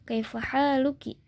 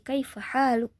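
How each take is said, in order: First: The last word ends with a vowel sound. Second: The last word ends on a bare consonant.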